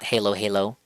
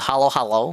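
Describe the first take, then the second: First: The first vowel sounds like the one in 'hay'. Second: The first vowel sounds like the one in 'hollow'. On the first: The speaker calls it wrong. "not Halo Halo because that'll look silly" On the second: The speaker calls it right. "I'm gonna assume it's pronounced that way"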